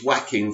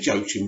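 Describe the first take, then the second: First: The name is said as 'Wah-keen'. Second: The name is said as spelled, 'Joe-a-kim'. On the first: The speaker calls it right. "It's Joaquin Phoenix, isn't it? Of course" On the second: The speaker calls it wrong. "I always say Joachim and I always get corrected"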